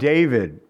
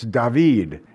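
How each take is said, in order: First: The name is said the usual everyday way. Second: The name is said the literal original way. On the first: The speaker calls it wrong. "we say wrong" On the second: The speaker calls it right. "If we were to say it literally, it's David"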